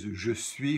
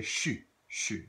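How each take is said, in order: First: French "je suis" with both syllables, zhuh swee; full careful "je suis"; standard je suis. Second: "suis" said as one syllable "shu"; casual Louisiana suis. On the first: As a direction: textbook je suis. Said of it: "which is". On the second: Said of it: "we say". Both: Shown as a demonstration.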